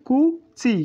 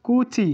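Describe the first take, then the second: First: কুচি slowly split as "ku... chi", pitched high; syllable-by-syllable pronunciation. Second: Said in the usual way. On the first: Shown as a demonstration. Teacher introduces the word for mouth to learners, syllable by syllable. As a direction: say কুচি in two separate, raised syllables. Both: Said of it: "এটি".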